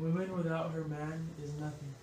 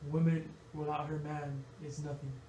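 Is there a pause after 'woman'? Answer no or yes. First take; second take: no; yes. First: It is read straight through without pauses. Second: There are pauses after woman and after man.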